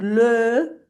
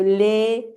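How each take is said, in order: First: "le" with a rounded, closed vowel; closed fish-mouth LE. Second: "le" as a spread "lé", stressed; smiled LE. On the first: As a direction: purse the lips on "le". («le» cerradito, como pececito) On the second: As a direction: smile on "le" so it becomes "lé". («le» como «lé», con sonrisa) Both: Shown as a demonstration.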